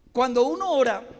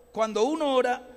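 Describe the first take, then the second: No difference in how they are said.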